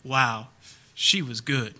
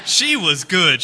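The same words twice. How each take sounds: First: Michael Caine amused. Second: Slow and louder, leaning on she; emphatic repeat. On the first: Retold or imitated. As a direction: murmur it like a gentleman conceding defeat. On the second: Shown as a demonstration. Preacher repeating the line for his congregation, slow emphatic. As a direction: land it slowly and loudly as the punchline. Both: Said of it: "all he can do is just kind of laugh and go".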